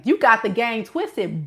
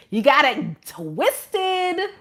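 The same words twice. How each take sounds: First: Said in the usual way. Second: Very slow, stretched out, with GOT leaning; slow drawn-out put-down. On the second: Shown as a demonstration. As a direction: drag every word to rub it in.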